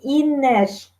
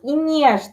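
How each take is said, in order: First: The n sound is hard. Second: The n sound is softened. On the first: The speaker calls it right. "мы говорим Инеш" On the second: The speaker calls it wrong. "мы не говорим ни в коем случае Инеш"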